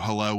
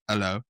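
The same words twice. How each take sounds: First: The word starts with an H sound. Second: The word starts without any H sound.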